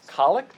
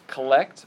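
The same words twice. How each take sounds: First: The stress is on the first syllable. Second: The stress is on the second syllable. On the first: The speaker calls it right. "apparently it's collect ... the emphasis is on the O" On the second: The speaker calls it wrong. "I'd been mispronouncing. I'd called it collect"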